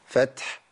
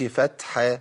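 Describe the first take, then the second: First: The word ends on a silent final consonant. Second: The word ends with a vowel after the consonant. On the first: The speaker calls it right. "بقف عليه بالسكون، أقول فتح" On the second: The speaker calls it wrong. "بقولش فتح، ما ينفعش الحركة لا تثبت عند الوقف"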